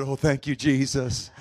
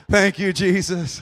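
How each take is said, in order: First: Said in the usual way. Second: Louder, slow grateful praise; emphatic thanks. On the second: Retold or imitated. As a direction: draw out each word in relief.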